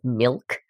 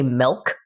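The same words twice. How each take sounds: First: The vowel sounds like 'ih'. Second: The vowel sounds like 'eh'. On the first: "instead of milk" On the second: "I say milk ... with like an E"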